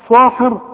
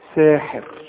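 First: The first s sound is heavy and emphatic. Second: The first s sound is light and plain. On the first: The speaker calls it wrong. "عمرك هتقراها تقول لي صاحر صاحر زي ما بتقول سلطان" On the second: The speaker calls it right. "هتقولها ايه ساجدة ساحر"

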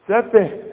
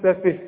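First: The final h sound is left out. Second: The final h sound is clearly pronounced. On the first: The speaker calls it wrong. "مش تقول لي سفه سفه سفه" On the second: The speaker calls it right. "بينها للسامع ولنفسك بان فيه هه"

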